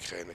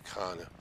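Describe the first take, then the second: First: The vowel is a front 'eh' sound. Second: The vowel is an open 'ah' sound. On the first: The speaker calls it wrong. "Nicht Kräne" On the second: The speaker calls it right. "dass es Krane heißt und nicht Kräne"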